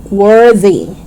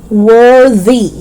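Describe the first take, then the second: Both takes have the same delivery.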